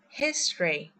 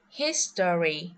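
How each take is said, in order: First: The middle vowel is dropped, leaving two syllables. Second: Every vowel is pronounced, with three full syllables. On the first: The speaker calls it right. "we will skip the vowel" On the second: The speaker calls it wrong. "We don't pronounce"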